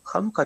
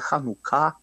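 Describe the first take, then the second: First: The word is stressed the common, non-Hebrew way. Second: The word is stressed the Hebrew way.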